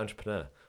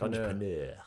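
First: It is said with a plain English accent. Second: It is said with a put-on foreign accent. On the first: "I never used to say entrepreneur" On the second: "now I'm like entrepreneur"

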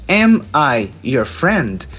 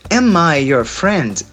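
First: The words are separated by small pauses. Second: The words run together without pauses.

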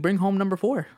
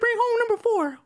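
First: It is said in his ordinary speaking voice. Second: It is said in a high cartoon mouse voice.

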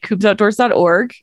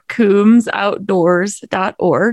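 First: It is said at normal speed. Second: It is said more slowly.

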